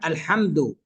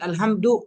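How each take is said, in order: First: The h is a strong throaty pharyngeal sound. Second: The h is a light plain breathy sound. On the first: It means praise and thanks to God. The speaker calls it right. "فالحمد الشكر لله" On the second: It means death and stillness. The speaker calls it wrong. "لكن الحمد أي الموت والسكون"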